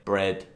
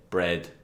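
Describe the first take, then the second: No difference in how they are said.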